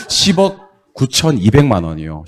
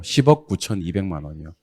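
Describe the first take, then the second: First: 십억 구천이백만 said slowly and clearly; slow it down, 십억 first; careful final demo; slow model reading. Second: Said in the usual way. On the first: Shown as a demonstration. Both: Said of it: "오케이".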